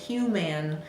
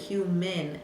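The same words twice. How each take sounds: First: The second syllable has a full vowel sound. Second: The second syllable has a reduced schwa sound. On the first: The speaker calls it wrong. "the student might come up with human" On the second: The speaker calls it right. "we really pronounce it human, eh, eh, eh, the A saying eh"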